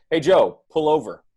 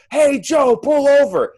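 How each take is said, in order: First: Slightly raised, controlled call from the backseat; mild backseat call. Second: Very high, full-volume acted scream; megaphone scream. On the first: Acted. Backseat passenger asks client to pull over, mild call. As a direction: call out an instruction without yelling. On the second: Backseat driver screaming in the client's ear, megaphone scream. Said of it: "they have a megaphone screaming in your ear".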